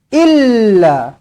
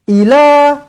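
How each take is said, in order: First: The L sound is held and doubled. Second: The L sound is short and single. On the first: The speaker calls it right. "Dekat sini dia ada sabdu" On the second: The speaker calls it wrong. "jangan ila. ... Salah"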